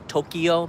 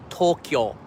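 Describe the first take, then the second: First: The word is said with three syllables. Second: The word is said with two syllables. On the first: This is how it is said in English. The speaker calls it wrong. "We say in English" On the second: This is how it is said in Japanese. The speaker calls it right. "it's actually two syllables, not three"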